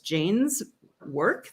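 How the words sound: The tone is calm and neutral. The speaker is simply clarifying the nature of the task. The speaker calls it right. "my tone there was real neutral"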